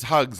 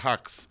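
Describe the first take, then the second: First: The name ends with a voiced 'gz' sound. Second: The name ends with a voiceless 'ks' sound. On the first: The name is mispronounced on purpose to mock him. The speaker calls it wrong. "it's Hugs, not Hux" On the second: The name is said properly. The speaker calls it right. "not Hux"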